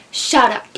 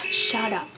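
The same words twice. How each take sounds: First: Much louder, exasperated burst; loud retort. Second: Short dismissive put-down at normal volume; curt retort. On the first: Silencing whoever interrupts the rant, loud retort. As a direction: raise the voice hard on a short command. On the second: Answering critics of not eating meat, curt retort. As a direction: cut them off without raising the voice. Retort to people questioning vegetarians. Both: Acted.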